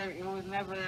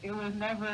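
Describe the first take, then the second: No difference in how they are said.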